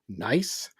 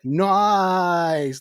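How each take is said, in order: First: It is short, with an offended questioning tone. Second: It is stretched out long with enthusiasm.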